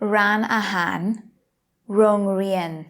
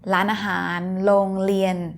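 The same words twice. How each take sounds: First: The r is an English-style r sound. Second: The r is said as an l sound. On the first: The speaker calls it wrong. "พูดภาษาไทยสำเนียงอเมริกัน ... ไม่ใช่สำเนียงไทยที่ดีนะคะ" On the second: The speaker calls it right. "ต้องเป็น L"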